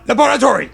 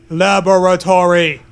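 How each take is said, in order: First: "Laboratory" exclaimed higher, in a put-on voice; excited exclaim. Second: Said in the usual way. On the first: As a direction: burst out "Laboratory" with delight.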